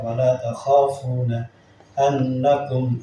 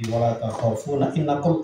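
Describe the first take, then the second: First: The last word begins with an 'a' vowel. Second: The last word begins with an 'i' vowel. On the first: The speaker calls it right. "tapi dibaca wala takhafuna annakum" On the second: The speaker calls it wrong. "innakum tidak"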